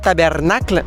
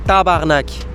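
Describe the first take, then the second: First: The word is said in full, standard French style. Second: The word is shortened, ending sharply on k. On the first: The speaker calls it wrong. "on dit pas tabernacle" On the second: The speaker calls it right. "on dit tabarnak"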